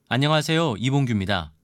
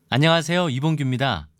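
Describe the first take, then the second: The two takes are said the same way.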